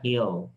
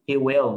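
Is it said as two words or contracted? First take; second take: contracted; two words. First: The words are merged into one short syllable. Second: Both words are said separately in full. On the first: "mình nói he'll" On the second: "tự do mình nói he will"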